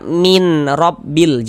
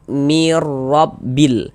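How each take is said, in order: First: The n is clearly kept before the r. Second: The n is merged into the following r. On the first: The speaker calls it wrong. "Jangan dibaca min rabbil, jangan" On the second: The speaker calls it right. "Sehingga ini kita baca mirabbil"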